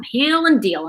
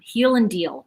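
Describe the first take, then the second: First: Heal and deal said higher and louder, punching "and"; emphatic catchphrase. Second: Said in the usual way. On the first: Shown as a demonstration. Repeating her slogan to viewers, higher and louder with "and" punched. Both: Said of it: "is what I'm calling".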